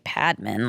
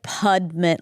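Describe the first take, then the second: First: The name has a non-Indian, plain pronunciation. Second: The name has an Indian-style pronunciation. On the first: The name is treated as not Indian. "obviously it just can't be Padman" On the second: The name is treated as belonging to an Indian person. "he like made it Indian"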